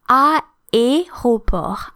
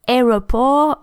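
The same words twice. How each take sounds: First: The first two vowels are pronounced separately. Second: The first two vowels blend into one sound. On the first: The speaker calls it right. "these two vowels need to be pronounced separately" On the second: The speaker calls it wrong. "English speakers who tend to say aéroport"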